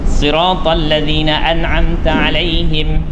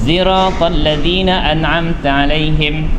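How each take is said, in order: First: The first word begins with an emphatic s. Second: The first word begins with a z sound.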